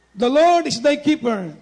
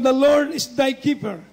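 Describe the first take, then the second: First: Slow, a bit louder, leaning on "Lord"; slow down and press "Lord" for the flock; emphatic repeat. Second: Said in the usual way. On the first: Shown as a demonstration. Repeat of the quoted verse.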